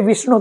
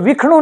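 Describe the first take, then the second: First: The middle consonant sounds like sh. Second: The middle consonant sounds like kh. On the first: The speaker calls it right. "श को सही बोलेंगे, ख नहीं बोलेंगे" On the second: The speaker calls it wrong. "नहीं होकर के"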